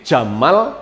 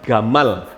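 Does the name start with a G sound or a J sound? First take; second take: J sound; G sound. First: The name starts with a soft J sound. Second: The name starts with a hard G sound. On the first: This is the Saudi way of reading the letter. "Di Arab Saudi, Jim, ya J" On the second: This is the Egyptian way of reading the letter. "kalau di Mesir itu bacanya bukan J tapi G"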